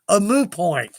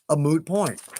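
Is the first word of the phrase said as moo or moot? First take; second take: moo; moot. First: The word is said without the final t sound. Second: The word is said with its final t sound.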